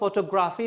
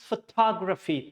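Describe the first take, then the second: First: The 'tog' syllable is weak and unclear. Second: The 'tog' syllable is strongly stressed and clear. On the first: The speaker calls it wrong. "It's not photography" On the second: The speaker calls it right. "So talk should be clear. I'm, you know, stressing it out so much"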